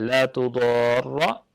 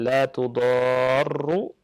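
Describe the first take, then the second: First: The last word ends with a doubled r and a. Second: The last word ends with a doubled r and u. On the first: It is a prohibition: do not. "ro-nya ditasydid dan difathahkan" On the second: It is a negation: not. "dengan doma"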